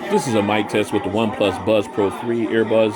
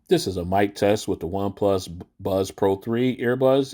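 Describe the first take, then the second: First: The voice is heard against crowd noise. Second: The voice is heard against quiet surroundings. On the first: "in a crowded location" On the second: "in a quiet location"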